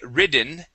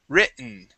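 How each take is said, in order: First: The middle t sounds like a d. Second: The middle t is swallowed and silent. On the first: The speaker calls it wrong. "we don't say ridden" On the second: The speaker calls it right. "we swallow or we use a silent T there"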